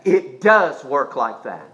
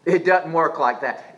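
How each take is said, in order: First: "does" drawn out slowly and firmly; stress on DOES. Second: Said in the usual way. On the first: Real, not acted. Preacher rebutting a doubter, slow firm stress on "does". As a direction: lean hard on "does", lower and slower.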